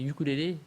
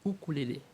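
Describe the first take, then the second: First: The word starts with a 'you' sound. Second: The word starts with an 'oo' sound. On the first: The speaker calls it wrong. "Je disais ukulélé" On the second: The speaker calls it right. "On ne prononce pas le Y"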